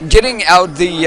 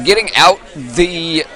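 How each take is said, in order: First: Said in the usual way. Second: Strained, breaking, slow words; voice cracking. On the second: Real, not acted. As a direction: voice giving out mid-call. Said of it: "oh, losing my voice".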